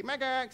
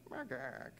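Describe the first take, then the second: First: High, loud bat chirp "Macaque"; happy bat hello. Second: Droop the chirp into a mope; sad bat noise. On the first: Contrast with the sad version: cheerful high bat greeting. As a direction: chirp it brightly. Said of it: "his happy". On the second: The lonely bat's hello gone sad, soft and falling. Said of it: "started to sound more like". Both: Retold or imitated.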